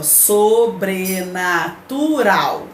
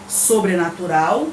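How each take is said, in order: First: Sobrenatural drawn out slowly, each syllable apart; teacher slowly sounding out the syllables of "sobrenatural". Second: Said in the usual way. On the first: Shown as a demonstration. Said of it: "só que separando a sílaba".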